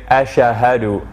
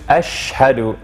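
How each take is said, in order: First: An extra vowel sits between sh and h. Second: The sh runs straight into the h. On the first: The speaker calls it wrong. "Between the sha and the ha they add a uh" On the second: The speaker calls it right. "No, just ashhadu"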